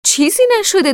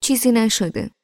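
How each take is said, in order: First: Much higher, louder shout. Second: A touch of impatient brush-off, slightly raised. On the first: Amir shouting to Mohammad from afar, loud shout. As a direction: call out fast to reassure. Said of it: "امیر فوری فریاد زد". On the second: Narrator as girl, impatiently dismissing Amir, mildly impatient. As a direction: wave it off impatiently. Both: Acted.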